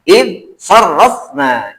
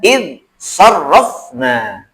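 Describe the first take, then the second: The two takes are said the same way.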